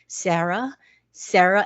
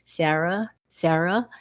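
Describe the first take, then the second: First: It is said louder. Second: It is said softly.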